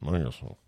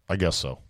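First: It is said quietly and reluctantly. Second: It is said louder and more clearly.

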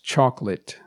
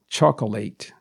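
First: The ending is short and reduced. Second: The ending sounds like the word late. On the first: The speaker calls it right. "it is pronounced chocolate" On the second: The speaker calls it wrong. "a lot of people will pronounce this as chocolate, because there's L-A-T-E at the end, which is late"

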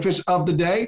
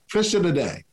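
First: Each word is clearly and separately pronounced. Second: The words are slurred together and hard to catch. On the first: The speaker calls it right. "I'm going to enunciate my words" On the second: The speaker calls it wrong. "I used to slur my words"

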